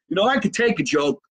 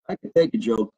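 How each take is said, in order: First: High-pitched good-humoured protest. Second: Low, dropped-down deadpan delivery; deadpan repeat. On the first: Comedian answering a viewer's jab, high and good-humoured. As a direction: pitch it up, just after laughing. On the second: Comedian insisting to a teasing viewer, low and deadpan. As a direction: drop the pitch and state it soberly. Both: Real, not acted.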